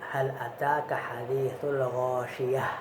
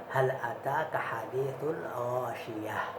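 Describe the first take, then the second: No difference in how they are said.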